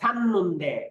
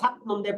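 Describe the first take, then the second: First: The first syllable ends with an n sound. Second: The first syllable ends with a t sound. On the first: The speaker calls it right. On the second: The speaker calls it wrong.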